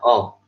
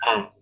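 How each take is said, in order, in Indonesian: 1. Vokalnya membulat, terdengar mendekati O. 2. Vokalnya melebar, seolah sedang tersenyum. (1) "Jadi kayaknya menjadi seperti uh, vokal O" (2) "ditarik ke samping A, ya senyum"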